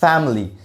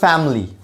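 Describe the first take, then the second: No difference in how they are said.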